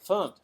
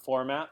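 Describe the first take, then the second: First: It is said as one short syllable, fumpt. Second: It is said as two syllables, for-mat. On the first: The speaker calls it right. "you say fumped" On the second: The speaker calls it wrong. "not format"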